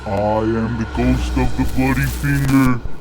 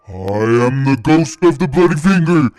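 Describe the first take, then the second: First: It is said faintly, quietly moaning. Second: It is said a bit louder.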